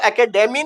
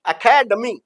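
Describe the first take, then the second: First: The third syllable has a full, unreduced vowel. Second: Second syllable stressed, third syllable vowel reduced. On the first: The speaker calls it wrong. "Demi नहीं" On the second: The speaker calls it right. "डमी हो गया"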